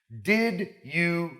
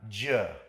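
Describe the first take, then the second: First: Both words are pronounced fully and separately. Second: Both words merge into a single 'ja' syllable.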